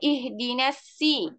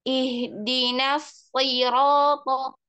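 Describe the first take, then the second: First: The s sound is thin and light. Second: The s sound is thick and heavy. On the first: The speaker calls it wrong. "nggak boleh ihdinasi" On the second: The speaker calls it right. "tapi naikkan pangkalnya"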